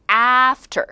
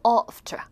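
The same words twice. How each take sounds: First: "after" with a wide-open flat "æ"; American A. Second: "after" with a back "ah", no r; British A. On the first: Teacher shows American vowel, "after" with wide æ. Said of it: "미국 사람들이 입을 이만큼 벌려요". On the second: Teacher shows British vowel, "after" as ahf-tuh. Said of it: "영국 사람도". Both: Shown as a demonstration.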